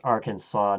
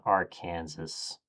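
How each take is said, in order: First: "Arkansas" said ARK-an-saw, with the final s silent; "Arkansas" as ARK-an-saw, the right way; correct pronunciation. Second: "Arkansas" said slowly as ar-KAN-sas, like Kansas; "Arkansas" as ar-KAN-sas, the wrong way; wrong pronunciation. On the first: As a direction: stress the first syllable of "Arkansas" and end on "saw". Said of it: "It's pronounced Arkansas". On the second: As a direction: put the stress on KAN in "Arkansas" and say the final s. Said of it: "not Arkansas". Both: Shown as a demonstration.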